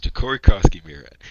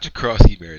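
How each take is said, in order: First: The name is said with 'Cory' before 'Krosky'. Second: The name is run together without a separate 'Cory'. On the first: The speaker calls it right. "It's Ja'Cory Krosky Merritt" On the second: The speaker calls it wrong. "It is not Jakrowski Merritt"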